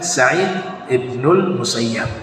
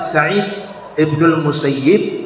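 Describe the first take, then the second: First: The name ends with the vowel a before b. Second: The name ends with the vowel i before b. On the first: "Ada juga yang membaca" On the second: "itu yang paling ashah"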